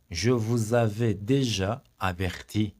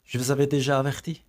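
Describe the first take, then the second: First: Very slow, stretched déjà; slow model sentence. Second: Said in the usual way. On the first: Shown as a demonstration. Teacher slowly repeats the warning sentence for students. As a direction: draw the sentence out word by word.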